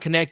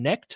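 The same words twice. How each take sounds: First: The K at the start is pronounced. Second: The K at the start is silent. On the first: The speaker calls it right. "Mike graciously corrected my pronunciation" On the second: The speaker calls it wrong. "I thought the K was silent"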